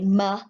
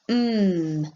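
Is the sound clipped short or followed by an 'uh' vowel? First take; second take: with uh; clipped. First: The consonant is followed by an added 'uh' vowel. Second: The consonant is clipped short with no added vowel. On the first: The speaker calls it wrong. "we don't say muh" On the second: The speaker calls it right. "We have to make it the shortest possible sound"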